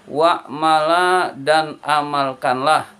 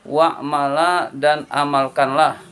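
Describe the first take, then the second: No difference in how they are said.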